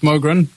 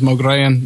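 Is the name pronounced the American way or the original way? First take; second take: American; original. First: The name is said in the Americanized way. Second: The name is said in its original way. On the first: The speaker calls it wrong. "which it's not because he's American" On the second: The speaker calls it right. "if it was pronounced properly"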